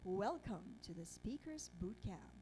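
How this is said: The voice is full and deep, from the diaphragm.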